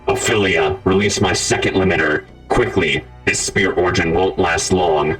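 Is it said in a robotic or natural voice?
robotic. It is said in a robotic voice.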